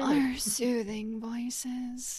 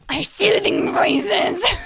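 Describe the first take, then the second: First: It is said in a less scary voice. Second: It is said in a scary demon voice.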